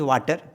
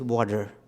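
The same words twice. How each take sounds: First: It is said in an Indian English accent. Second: It is said in an American English accent. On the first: "an Indian tongue or a lower down Indian tongue, it is water" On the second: "and it's American, it is water"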